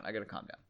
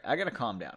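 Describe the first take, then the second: First: Much softer and lower, to yourself; repeated softly under the breath; quiet self-calming. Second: Said in the usual way. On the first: Real, not acted. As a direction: murmur it to settle yourself.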